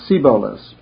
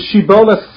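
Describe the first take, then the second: First: The word begins with an 's' sound. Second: The word begins with an 'sh' sound. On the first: The speaker calls it wrong. "as a samach, as sibolas" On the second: The speaker calls it right. "They pronounce the shin of shibolas as a si"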